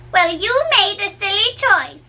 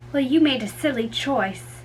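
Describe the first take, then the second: First: Teasing nurse. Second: Said in the usual way. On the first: Shown as a demonstration. Said again differently.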